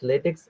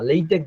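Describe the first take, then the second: First: The word ends with a ks sound. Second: The word ends with a k sound. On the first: The speaker calls it wrong. "প্রোনাউন্সিয়েশনটা লেটেক্স বলে ফেলে অনেকে" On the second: The speaker calls it right. "Correct প্রোনাউন্সিয়েশনে আসি, এটার উচ্চারণ হবে লেইটেক"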